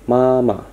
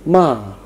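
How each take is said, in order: First: The pitch stays high and level. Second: The pitch falls sharply from high to low. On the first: "nada tinggi tetapi datar, seperti sebuah garis datar" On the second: "nada yang tinggi, kemudian turun ke rendah dan diucapkan dengan kuat dan pendek"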